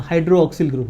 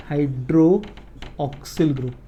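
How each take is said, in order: First: Said in the usual way. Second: hydroxyl drawn out part by part; hydroxyl stretched out at half speed; slow dictation. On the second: Real, not acted. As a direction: say hydroxyl slowly, as if writing along. Repeats the term while writing.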